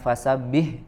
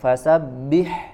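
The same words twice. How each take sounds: First: The final h sound is harsher and rougher. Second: The final h sound is softer and gentler. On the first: The speaker calls it wrong. "bukan bukan fasabbih ya" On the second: The speaker calls it right. "tapi fasabbih, ya lebih lembut suaranya"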